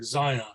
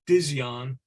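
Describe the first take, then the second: First: The name begins without any D sound. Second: The name begins with a sounded D. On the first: The speaker calls it right. "something like Zion uh, with a, with a silent D" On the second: The speaker calls it wrong. "I have always called this band Dizzion, but uh, from my understanding, it's that's not the correct pronunciation"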